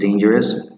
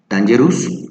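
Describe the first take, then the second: First: The first syllable sounds like day. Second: The first syllable does not sound like day. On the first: The speaker calls it right. "The correct pronunciation is dangerous" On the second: The speaker calls it wrong. "many people say dangerous"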